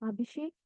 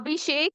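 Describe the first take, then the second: First: The name is muffled and quiet behind a hand. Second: The name is called loudly and clearly. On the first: "ಕೇಳಿಸಲ್ಲ. Because ನನ್ನ ಕೈಯನ್ನ ನಾನು ಅಡ್ಡ ಇಟ್ಟಿರ್ತೀನಿ" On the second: "ನಿಮ್ಮೆಲ್ಲರಿಗೂ ಕೇಳಿಸುತ್ತೆ"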